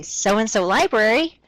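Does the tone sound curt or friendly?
friendly. It sounds warm and smiling.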